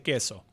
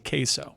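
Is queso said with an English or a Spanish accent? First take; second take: Spanish; English. First: It is said with a Spanish pronunciation. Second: It is said with an English pronunciation. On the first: The speaker calls it wrong. "I don't like to say" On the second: The speaker calls it right. "the gringofication of it"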